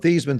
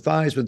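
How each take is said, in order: First: The first syllable does not rhyme with Heis. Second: The first syllable rhymes with Heis. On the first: This is the family's original pronunciation. "from Thiesman" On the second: This pronunciation was chosen to echo the trophy's name. "to rhyme with Heisman"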